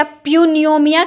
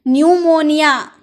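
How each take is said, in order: First: प्यूनियोमिया said with the p sounded; the mistaken प्यूनियोमिया, p pronounced; wrong pronunciation. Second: न्यूमोनिया said with silent p; teacher gives the right न्यूमोनिया; correct pronunciation. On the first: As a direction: demo the error प्यूनियोमिया. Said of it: "नहीं". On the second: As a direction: model न्यूमोनिया without any p. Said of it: "इसे हम न्यूमोनिया कहते हैं". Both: Shown as a demonstration.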